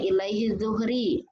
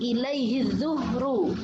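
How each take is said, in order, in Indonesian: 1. Kata terakhir berakhir dengan vokal i. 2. Kata terakhir berakhir dengan vokal u.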